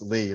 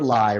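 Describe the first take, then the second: First: The name's vowel sounds like 'see'. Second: The name's vowel sounds like 'eye'. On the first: The speaker calls it right. "the real pronunciation is Lee" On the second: The speaker calls it wrong. "some people call her Lai"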